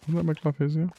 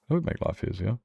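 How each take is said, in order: First: Sing-song question pitched up high; playful high-pitched aside; high mock question. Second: Said in the usual way. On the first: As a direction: toss the line up high in a teasing rise. Same line repeated, pitched up.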